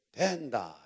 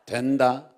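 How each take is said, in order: First: Gyeongsang dialect with a stretched first syllable; Gyeongsang accent. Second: Said in the usual way. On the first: Shown as a demonstration. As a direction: say it the Gyeongsang way, drawn out. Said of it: "경상도 버전으로".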